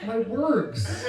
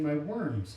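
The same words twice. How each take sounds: First: "words" pitched high and loud, then falling; overcareful, tongue-tied "words"; labored correction. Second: "worms" said in place of words; tongue-tied slip on "worms"; mispronunciation. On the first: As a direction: push out "words" as a struggling correction. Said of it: "having trouble pronouncing". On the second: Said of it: "having trouble pronouncing my worms". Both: Pretend.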